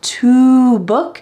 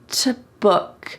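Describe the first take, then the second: First: The vowel of to is a full oo. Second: The vowel of to is cut short.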